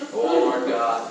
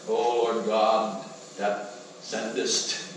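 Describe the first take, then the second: First: Slow prayer, a bit less showy; toned-down mock prayer. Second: Very slow, drawn-out showy prayer; mock pompous prayer. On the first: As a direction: pray humbly but still performing. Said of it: "wasn't quite as loud as last week". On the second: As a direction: ham up a grand churchy prayer. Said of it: "give a beautiful prayer".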